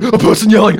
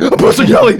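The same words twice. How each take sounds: First: Mild panic. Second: Much higher, louder frightened shriek; panicked squeal. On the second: Teenage self panicking at a person yelling, squeal. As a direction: squeal like a scared kid. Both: Retold or imitated. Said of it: "option one, which is me in year nine".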